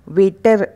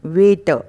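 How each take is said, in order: First: वेटर with a sounded final r; mispronounced waiter. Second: वेटर as loud "way-tuh"; silent r. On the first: Teacher showing the mistake, वेटर with r. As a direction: roll the r at the end of वेटर. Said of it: "वेटर नहीं". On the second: Teacher correcting waiter, वेटर without r. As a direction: end वेटर on "uh", no r. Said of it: "ट के बाद अ का उच्चारण". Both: Shown as a demonstration.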